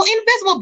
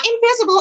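First: Invisible repeated much higher for emphasis; incredulous high-pitched invisible; emphatic repeat. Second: Said in the usual way. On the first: Real, not acted. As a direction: throw invisible up high in disbelief. Repeats word, second time higher.

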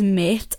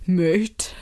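First: Said in the usual way. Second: A light mock of a posh North Down accent, drawn out; imitating a comedian's posh North Down character. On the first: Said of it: "but he says". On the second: Comic character greeting everyone, lightly mocked posh North Down accent. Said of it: "he does his Mike McGoldrick character ... really posh accent".

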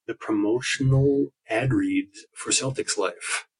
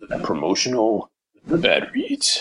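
First: Low, slow announcer read; deep old radio serial announcer. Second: Imitating radio announcer voice. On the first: Pretend. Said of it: "That's my radio announcer voice". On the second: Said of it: "I like that voice".

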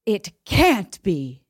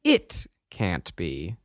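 First: Slow line, hit hard on "can't"; stress on can't. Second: "It" set apart and drawn out, the rest low and softer; stress on It. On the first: Host demonstrates emphasis on each word, stressing "can't". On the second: Co-host takes up the emphasis game, stressing "It". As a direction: lean on "It", pause, then finish slowly. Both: Shown as a demonstration. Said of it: "Put the emphasis on the, a different word".

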